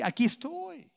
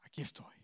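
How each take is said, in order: First: Said in the usual way. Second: Unvoiced whisper, barely audible. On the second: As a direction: breathe "Aquí estoy" like a secret. Christ's words whispered. (susurrando "Aquí estoy" en voz apenas audible)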